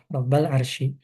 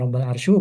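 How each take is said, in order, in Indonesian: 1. Kata terakhir berakhir dengan vokal i. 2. Kata terakhir berakhir tanpa vokal i. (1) "maka dibaca kasrah"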